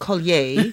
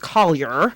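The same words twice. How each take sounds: First: The name is said with a French pronunciation. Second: The name is said with an American pronunciation. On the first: "If you say it in French" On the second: "If you say it in American"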